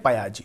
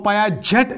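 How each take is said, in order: First: The name ends with a vowel sound. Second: The name ends with a 't' sound. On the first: This is how the name is spoken. The speaker calls it right. "Pronounce करते हैं पायाजी" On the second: This is how the name is written. The speaker calls it wrong. "लिखते हैं"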